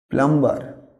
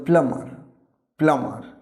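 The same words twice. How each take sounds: First: "প্লাম্বার" with the b said, plam-bar; wrong pronunciation. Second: "প্লাম্বার" with a silent b, plamar; correct pronunciation. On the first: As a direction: read "প্লাম্বার" sounding the b. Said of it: "না, এটা প্লাম্বার না". (ভুল উচ্চারণ "প্লাম্বার", বি উচ্চারণ করে) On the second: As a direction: drop the b in "প্লাম্বার". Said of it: "বির উচ্চারণটা silent হবে". (সঠিক উচ্চারণ "প্লাম্বার", বি নীরব) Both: Shown as a demonstration.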